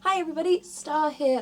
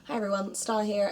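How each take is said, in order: First: The greeting sounds very cheerful. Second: The greeting sounds calmer and subdued.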